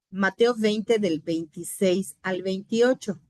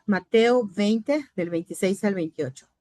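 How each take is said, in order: First: Said in the usual way. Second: Slow, spelled-out reference for note-taking; slow dictation. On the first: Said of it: "Dice la palabra del Señor". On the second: Shown as a demonstration. Teacher slowly dictating the verse reference to the class. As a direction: give the students time to write it. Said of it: "Anote las palabras".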